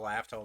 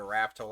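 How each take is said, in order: First: Laftel, begun with an L sound; L-version of the name, Laftel; L at the start. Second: Raftel, begun with an R sound; R-version of the name, Raftel; R at the start. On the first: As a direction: say Laftel with an opening L. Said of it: "whatever the fuck you wanna call it". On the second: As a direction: say Raftel with an opening R. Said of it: "Laftel, whatever the fuck you wanna call it". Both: Shown as a demonstration.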